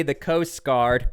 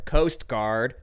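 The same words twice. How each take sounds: First: "Coast Guard" drawn out slowly, each word leaned on; slow down and weigh "Coast Guard"; slow stress on Coast Guard. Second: "Coast Guard" repeated with a mocking upward lilt; sarcastic rising repeat. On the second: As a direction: echo "Coast Guard" as a wry question. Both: Shown as a demonstration. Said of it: "I'm being a little sarcastic here".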